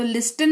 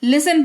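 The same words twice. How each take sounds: First: लिस्टन said with the t sounded; wrong pronunciation. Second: लिसन with silent t; correct pronunciation. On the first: Teacher shows the wrong way, लिस्टन with t. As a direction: demo the wrong way, लिस्टन with a clear t. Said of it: "लिस्टन नहीं". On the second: Teacher gives students the right form, लिसन with silent t. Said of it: "लिसन पढ़ेंगे". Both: Shown as a demonstration.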